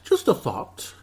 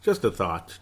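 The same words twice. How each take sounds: First: High-pitched jokey put-on voice; playful, jumping up high; silly high voice. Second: Said in the usual way. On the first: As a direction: repeat it in a silly squeak. Remark repeated in silly voice.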